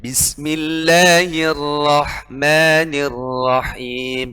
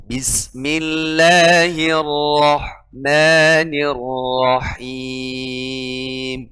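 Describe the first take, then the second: First: Bismillahirrahmanirrahim with the ra wrongly read thin; slow recitation, thin light r in rahman; mispronounced Bismillahirrahmanirrahim, thin r. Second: Bismillahirrahmanirrahim sung slowly with a full heavy r; slow chanted Bismillahirrahmanirrahim, thick r in rahman. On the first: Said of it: "Nggak boleh". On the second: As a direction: correct recitation, heavy ra. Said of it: "Harus dibaca tebal". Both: Shown as a demonstration.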